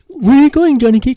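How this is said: It is said in a Winnie the Pooh voice.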